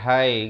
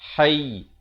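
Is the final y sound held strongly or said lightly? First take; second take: light; held strongly. First: The final y sound is light and short. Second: The final y sound is pressed and held. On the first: The speaker calls it wrong. "dia tak boleh hai gitu saja tak boleh" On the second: The speaker calls it right. "Kalau waqaf kena tekan sikit"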